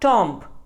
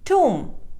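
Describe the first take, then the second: First: The b sound is pronounced. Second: The b sound is silent. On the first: The speaker calls it wrong. "or tomb" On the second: The speaker calls it right. "The correct pronunciation is tomb. B is silent"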